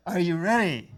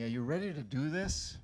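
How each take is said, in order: First: Louder, higher rallying cry to the crowd; rally shout. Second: Said in the usual way. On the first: Shown as a demonstration. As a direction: fire up the audience. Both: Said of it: "I wanna hear a big yes".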